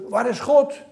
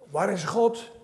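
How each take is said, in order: First: The question is asked with strong, forceful emphasis. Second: The question is asked plainly, without extra force.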